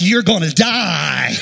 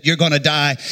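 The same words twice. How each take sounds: First: Slow, drawn-out doom call with a falling end; menacing paddle whistle. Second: Said in the usual way. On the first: Retold or imitated. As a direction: stretch it out like a whistling threat. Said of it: "the whistle was like". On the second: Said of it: "that whistle that said".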